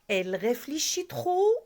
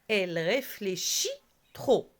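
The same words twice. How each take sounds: First: The voice rises at the end. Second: The voice falls at the end. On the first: It is a question. "à l'oral, c'est grâce à l'intonation. L'intonation change" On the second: It is a statement. "Cette phrase-là se termine par quoi? Par un point simple"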